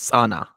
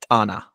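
First: The word begins with a harsh S sound. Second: The word begins with a harsh T sound. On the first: This is the original Ge'ez form. "we take a G'ez word, for example, the famous lake is Sana" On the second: This is the Amharic form. "and then we pronounce it Tana"

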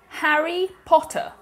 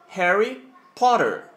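First: It is said in a British accent. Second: It is said in an American accent.

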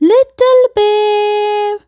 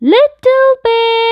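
First: It is said louder. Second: It is said loudest of all.

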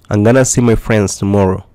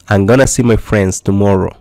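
First: 'Going to' is blended into one word, 'gonna'. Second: 'Going to' is blended into one word, 'gonna'.

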